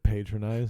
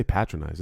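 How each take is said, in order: First: "Patronized" with a long AY in the first syllable; questioned pronunciation. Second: "patronize" with a short flat A, as in pat; alternative pronunciation. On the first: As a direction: say "Patronized" as PAY-tronized. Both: Real, not acted. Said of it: "I say patronize".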